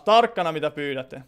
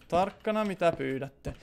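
First: Said in the usual way. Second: Slow, much softer mock-ominous warning. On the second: Streamer warns viewers what they ask for, in a slow hushed mock-ominous tone. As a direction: drop the voice and draw out "Tarkkana" like a spooky threat.

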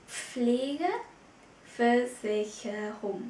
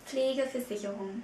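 First: Pflegeversicherung drawn out very slowly, each syllable separate. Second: Said in the usual way. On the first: Shown as a demonstration. Teacher slowly models Pflegeversicherung for Vietnamese students, very slow. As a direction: spell Pflegeversicherung out slowly for learners.

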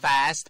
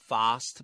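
First: "fast" with the flat American A, as in cat; American-style "fast", front open vowel. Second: "fast" with the long British AH; British-style "fast", vowel as in father. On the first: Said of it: "เป็นแบบอเมริกัน". ("fast" สำเนียงอเมริกัน สระแอ) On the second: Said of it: "อังกฤษ". ("fast" สำเนียงอังกฤษ สระอายาว) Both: Shown as a demonstration.

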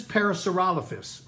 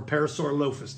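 First: "Parasaurolophus" with the stress on ROL; first pronunciation. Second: "Parasaurolophus" with the stress on LO; alternative pronunciation. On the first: Teacher naming the crested dinosaur, pronounced para-saw-ROL-uh-fus in "Parasaurolophus". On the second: Teacher offering another way to say it, para-sore-LOH-fus for "Parasaurolophus". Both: Shown as a demonstration. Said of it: "depending on how you pronounce it".

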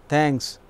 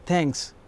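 First: "Thanks" said flat and falling, not pleased; a grudging, displeased "Thanks"; unhappy thanks. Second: "Thanks" said softly with a smile, truly obliged; grateful thanks. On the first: Teacher demos thanks when not happy, grudging and curt. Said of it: "That simply means I am not happy". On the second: Teacher demos thanking someone who helped, soft and grateful. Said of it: "I am having a smile on my face and I am really obliged". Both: Shown as a demonstration.

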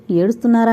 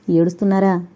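First: Said in the usual way. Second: Mild pity. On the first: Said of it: "అంటే దుఃఖం రెట్టింపవుతుంది". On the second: A narrator's reading. Kumar asks the weeping Sridevi, mildly pitying. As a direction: ask with a touch of compassion. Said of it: "జాలిగా అడిగాడు".

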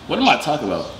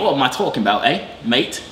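First: Said in the usual way. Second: Put-on English accent. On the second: Correcting himself after accent slipped, put-on English accent. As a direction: fake English accent, hammed up. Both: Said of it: "your accent come out now".

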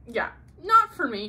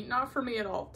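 First: Emphatic not for me. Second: Said in the usual way. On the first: Real, not acted.

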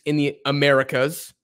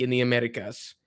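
First: Said in the usual way. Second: A hint of an accent on Americas; slight accent. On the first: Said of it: "I speak in English". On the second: Real, not acted. Vlogger naming the league, slipping into a slight accent. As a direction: slip into a light accent on "Americas". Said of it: "I don't know why I said that with a, with an accent".

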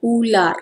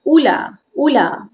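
First: Formal "ular" with its final R; careful textbook "ular", R included; formal Malay pronunciation. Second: Everyday "ular" with R hardly audible; informal Malay pronunciation. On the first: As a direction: say "ular" slowly, sounding the R. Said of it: "This is formal pronunciation". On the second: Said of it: "Informal pronunciation". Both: Shown as a demonstration.

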